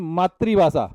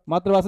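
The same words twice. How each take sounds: First: A clear 'ri' sound follows 'maat'. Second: The 'ri' sound after 'maat' is missing. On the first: The speaker calls it right. "री की मात्रा आएगी" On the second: The speaker calls it wrong. "काफी बच्चे बोलते हो कि मातृभाषा, मातृभाषा नहीं"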